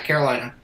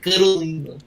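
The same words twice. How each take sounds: First: The name is said plainly, without strong nasality. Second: The name is said with exaggerated heavy nasality.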